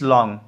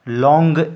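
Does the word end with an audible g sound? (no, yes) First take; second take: no; yes. First: The word ends in ng without a g. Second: The word ends with a clearly sounded g. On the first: The speaker calls it right. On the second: The speaker calls it wrong.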